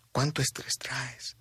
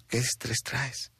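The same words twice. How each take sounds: First: Breathy whisper, slow and intimate; hushed slow whisper that makes the listener stop. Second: Said in the usual way. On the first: Shown as a demonstration. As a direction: lean in and whisper the question slowly. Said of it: "repeat of the question in a whisper". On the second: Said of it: "quiet question repeated, then whispered".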